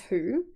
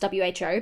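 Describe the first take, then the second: First: It is said as a single word. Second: Each letter is said separately. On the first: "but it can be pronounced as W H O. It's an acronym" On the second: "It's often pronounced W H O"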